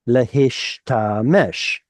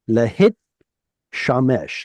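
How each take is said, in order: First: The t sound comes after the sh. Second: The t sound comes before the sh. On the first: The speaker calls it right. "Hebrew swaps them so that you can hear both of them" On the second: The speaker calls it wrong. "if the tav stayed where it should have stayed, you would lose it"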